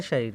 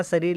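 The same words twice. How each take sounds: First: "शरीर" as "shareer", with sh; correct sh sound. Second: "शरीर" as "sareer", with s; wrong s sound. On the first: Teacher gives the proper form, "शरीर" said as shareer. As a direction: say "शरीर" starting on sh. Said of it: "इसका शुद्ध रूप क्या होता है". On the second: Teacher reads the misprint, "शरीर" mispronounced as sareer. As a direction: read "शरीर" with s instead of sh. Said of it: "लेकिन इसका शुद्ध रूप". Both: Shown as a demonstration.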